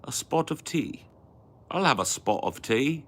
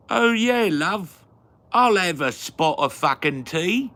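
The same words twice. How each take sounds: First: Said in the usual way. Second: Loud, high-pitched mock British; hammed-up British accent. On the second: Accepting a spot of tea, in loud mock British. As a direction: belt it out as a caricature Brit.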